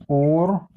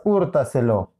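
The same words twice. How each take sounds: First: HÚRTASELO split as húr, ta, se, lo; syllable by syllable. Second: Said in the usual way. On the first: Shown as a demonstration. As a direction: leave long gaps between the four syllables of "Húrtaselo". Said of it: "Separamos en sílabas húrtaselo". («Húrtaselo» separado en sílabas: húr, ta, se, lo) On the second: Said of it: "Separamos en sílabas".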